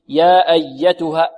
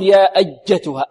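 First: The doubled consonant is a soft y sound. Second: The doubled consonant is a hard j sound. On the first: The speaker calls it right. "الياء حرف ماذا؟ رخو" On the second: The speaker calls it wrong. "ولا نقول يا أجتها"

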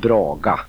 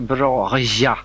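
First: The g is a hard stop sound. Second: The g is a soft rubbing fricative sound. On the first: "jag säger på mitt sätt nämligen braga" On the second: "jag har försökt att braja, men det blir inte"

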